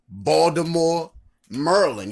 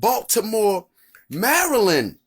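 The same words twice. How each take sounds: First: It is said in a local Baltimore accent. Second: It is said in a standard, non-local accent.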